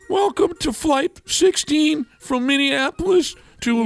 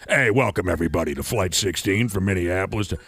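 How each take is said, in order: First: It sounds stiff and nervous. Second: It sounds casual and relaxed.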